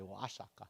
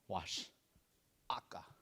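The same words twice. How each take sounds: First: The two parts run together without a pause. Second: There is a short pause between the parts. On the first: The speaker calls it wrong. "We don't say" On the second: The speaker calls it right. "So there's a little pause there"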